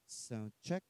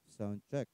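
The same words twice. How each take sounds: First: The voice sounds brighter with more treble. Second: The voice sounds nasal and muffled. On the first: The speaker calls it right. "iangat po natin itong treble or tweeter" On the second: The speaker calls it wrong. "medyo ngongo po"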